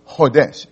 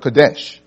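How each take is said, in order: First: The word begins with an H sound. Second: The word begins with a K sound.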